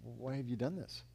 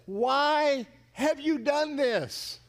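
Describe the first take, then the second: First: Low, very soft reproach; hushed, subdued accusation; hurt question. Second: Very slow, high, drawn-out demand; appalled outcry, word by word; accusing cry. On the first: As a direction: ask it quietly, as if wounded. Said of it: "look at you one day and say". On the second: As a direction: stretch every word in loud reproach. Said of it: "and ask him". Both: Acted.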